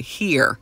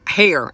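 First: Said in the usual way. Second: "Hair" said to rhyme with "air"; dialect "here". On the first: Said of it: "I should say". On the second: Shown as a demonstration. Speaker mocking their own slip, "Hair" for here. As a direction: say here as "Hair", with an open vowel. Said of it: "Hair, I should say".

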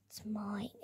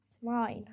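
First: Hissed whisper, barely voiced. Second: Said in the usual way. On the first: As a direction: breathe it like a greedy secret. Fighting over the toy car.

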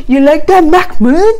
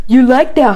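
First: You like that pushed higher and louder; louder mock taunt. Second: Teasing jab, raised and louder; mock taunt. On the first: Nicole taunting Mahmoud again, higher and louder mock taunt. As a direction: crank up the teasing on You like that, Mahmoud. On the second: Nicole needling Mahmoud at the pier, mock taunt. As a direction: needle him with you like that, said up and loud. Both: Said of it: "Nicole's like".

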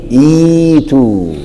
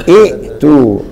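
First: إيتوا with a slow, drawn-out "ii"; hamza turned ya. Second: ائتوا with a glottal stop before the t; original hamza pronounced. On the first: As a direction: stretch إيتوا into "iii-tuu", no glottal stop. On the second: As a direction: break ائتوا at the hamza, "i'-tuu". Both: Shown as a demonstration. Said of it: "هقلب الهمزة الثانية ياء".

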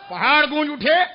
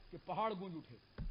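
First: Loud, raised, ringing call. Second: Very soft, low-pitched line; quiet. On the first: Preacher rousing listeners with the echoing mountains, loud. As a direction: lift it high for the crowd. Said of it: "اتنے زور سے اللہ اکبر کہا". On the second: Preacher telling of the echoing mountains, hushed and low. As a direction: let it sink low and soft. First take, dropped low before repeat. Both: Real, not acted.

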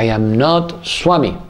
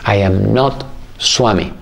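First: Slow, grave reply; calm, firm correction; serious master. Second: Slow and grave; serious master. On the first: Sai Baba repeating himself to the disciple, slow and serious. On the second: Sai Baba answering the eager disciple, slow and serious. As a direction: lay it down calmly and seriously. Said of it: "muy serio Sai Baba y me dice". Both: Retold or imitated.

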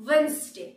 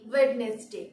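First: "ওয়েডনেসডে" as WENZ-day; silent d. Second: "ওয়েডনেসডে" as WED-nes-day; common mispronunciation. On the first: Teacher correcting learners, "ওয়েডনেসডে" as WENZ-day. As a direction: say "ওয়েডনেসডে" in two syllables, dropping d. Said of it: "ডি এর উচ্চারণ হবে না". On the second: Teacher showing what people say, "ওয়েডনেসডে" as WED-nes-day. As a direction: say "ওয়েডনেসডে" in three syllables with d. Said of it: "আমরা বলে থাকি". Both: Shown as a demonstration.

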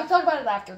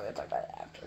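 First: Said in the usual way. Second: A hushed whisper. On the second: Real, not acted. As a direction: breathe it secretly. Same words whispered after.

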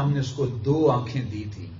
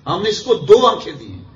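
First: Said in the usual way. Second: High, loud, emphatic declaration; impassioned preaching. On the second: Real, not acted. Preacher pressing the verse's meaning on listeners, impassioned and loud. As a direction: drive it home with a raised voice. Same translation, repeated with fervour.

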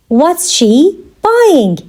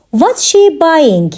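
First: Very slow, pause before "buying"; measured, separated words; slow teaching repeat. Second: Said in the usual way. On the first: Shown as a demonstration. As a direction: draw the question out for learners. Teacher repeats question slowly for learners.

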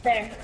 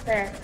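The two takes are said the same way.

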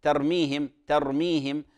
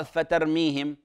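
First: "ترميهم" starting directly on ت; correct bare opening. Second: "فترميهم" with extra fa at the start; mistaken added fa. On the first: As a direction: begin "ترميهم" cleanly with no fa. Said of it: "في قوله تعالى مثلًا". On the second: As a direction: slip a stray fa onto "فترميهم". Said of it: "فيقرأ". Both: Shown as a demonstration.

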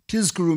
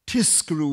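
First: "Tizkaru" with a voiced z in Tiz; Z sound. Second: "Tiskaru" with a hissed s in Tis; S instead of Z. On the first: Lecturer explaining the word for remember, voiced Z. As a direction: say "Tizkaru" with z, never s. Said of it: "it should be a Z". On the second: Lecturer showing the mistake that means reward, S sound. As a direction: say "Tiskaru" with unvoiced s, not z. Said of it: "Tiskaru with an S". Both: Shown as a demonstration.

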